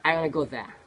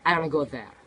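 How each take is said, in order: First: Want to is run together as wanna. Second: Want to is run together as wanna.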